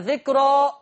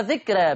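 First: The r is heavy, with a full, dark sound. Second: The r is light, with a thin, bright sound. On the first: "أبدأ بالتفخيم" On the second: "بالترقيق"

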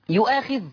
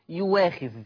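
First: A glottal stop comes before the long vowel. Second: A smooth w sound replaces the glottal stop. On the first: This is the word as written, with the hamza. "يؤاخذ تقرأ يواخذ" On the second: This is the Warsh reading, with the hamza replaced. "تقرأ يواخذ"

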